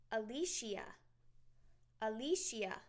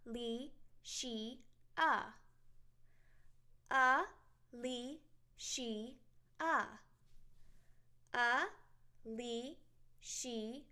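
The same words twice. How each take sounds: First: Said in the usual way. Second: Alicia stretched out slowly, one beat per syllable. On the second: Shown as a demonstration. Teacher slowly breaking her name into syllables. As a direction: draw out Alicia slowly, clapping each syllable. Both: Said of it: "I have four syllables in my name".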